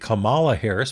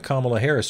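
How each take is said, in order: First: The name Kamala is deliberately said in a distorted way. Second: The name Kamala is said the usual way. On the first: The speaker calls it wrong. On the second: The speaker calls it right.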